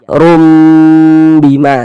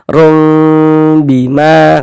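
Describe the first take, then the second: First: The m is said with lips fully closed. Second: The m is said with lips slightly apart. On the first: "dengan cara merapatkan kedua bibir, tapi jangan dikerutkan atau jangan diberikan tekanan. Rapatkan saja" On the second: "menyisakan sedikit celah yang kira-kira setipis sehelai kertas"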